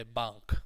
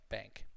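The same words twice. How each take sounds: First: BANK with an open "ah", like "bonk"; non-English vowel. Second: BANK with a nasal "a" as in cat; nasal English vowel. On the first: Teacher quoting international learners, open-vowel bank. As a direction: say "bank" as "bahnk". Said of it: "a lot of our cousins say bank". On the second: Teacher explaining the English sound, nasal bank. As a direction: say "bank" through the nose. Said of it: "in English it's a very nasal sound". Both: Shown as a demonstration.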